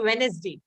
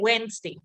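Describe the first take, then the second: First: The middle syllable with the second E is pronounced. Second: The middle syllable with the second E is dropped. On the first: The speaker calls it wrong. "I didn't really I didn't say Wednesday" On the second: The speaker calls it right. "I just said Wednesday"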